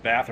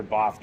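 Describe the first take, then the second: First: Said in the usual way. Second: "Bath" with a long broad ah; British pronunciation. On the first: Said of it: "some weird way of saying". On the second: Shown as a demonstration. Asking British companion how to say it, "Bath" with broad British ah. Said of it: "is that the British way".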